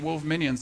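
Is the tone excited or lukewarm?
lukewarm. It is said with mild, half-hearted cheer.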